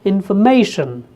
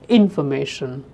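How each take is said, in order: First: The stress falls on the third syllable. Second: The stress falls on a different syllable. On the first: The speaker calls it right. "primary stress is on may. So you speak it as information" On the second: The speaker calls it wrong. "not information"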